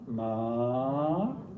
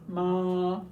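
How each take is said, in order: First: The pitch rises from middle to high. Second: The pitch stays high and level. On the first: "a rising tone" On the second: "a high tone"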